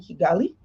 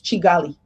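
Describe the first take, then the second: First: The name starts with a hard k sound. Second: The name starts with a ch sound. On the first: The speaker calls it wrong. "So it's not Kigali? No, it's Chigali" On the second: The speaker calls it right. "It's Chigali, ... it's a German pronunciation"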